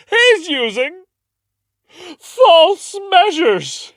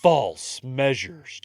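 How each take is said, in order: First: Much higher, louder, slow theatrical cry of "false measures"; dramatic accuser. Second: "false measures" drawn out slowly; quoting the charge "false measures" slowly; slow quote. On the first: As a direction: ham up the courtroom accusation. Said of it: "She goes". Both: Retold or imitated.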